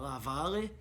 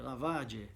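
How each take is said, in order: First: The middle consonant is an L sound. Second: The middle consonant is not an L sound. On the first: The speaker calls it wrong. "eu falava Lavale e ele não entendia" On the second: The speaker calls it right. "porque é Lavage"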